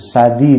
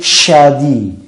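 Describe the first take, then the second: First: It begins with a plain s sound. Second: It begins with a strong sh sound. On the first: The speaker calls it wrong. "tidak boleh sa" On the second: The speaker calls it right. "tapi syadi"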